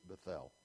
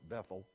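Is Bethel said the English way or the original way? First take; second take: original; English. First: It is said with the original, non-English pronunciation. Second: It is said with the usual English pronunciation. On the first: This is how the people of the original language say it. "They pronounce it Bethel" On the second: This is how the congregation usually says it. "I know we pronounce it Bethel"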